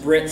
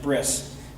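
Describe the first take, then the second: First: The word ends with a t sound. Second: The word ends with an s sound. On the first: "some people pronounce it Brit" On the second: "some people pronounce it Bris"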